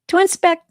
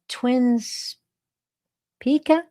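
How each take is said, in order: First: The second part is one short syllable, "spec". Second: The second part has two syllables, "spika". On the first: The speaker calls it wrong. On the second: The speaker calls it right.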